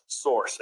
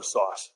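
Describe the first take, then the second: First: Said in the usual way. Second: "source" with the r dropped, like "sauce"; New England "source", no r, open o; New England accent. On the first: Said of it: "Yeah, sorry". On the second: Real, not acted. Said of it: "my New England accent came out".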